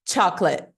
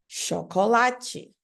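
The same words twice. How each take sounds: First: The middle vowel and final vowel are dropped. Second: Every syllable is pronounced, ending in a vowel. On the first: "nem o T é falado" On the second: "em português mesmo"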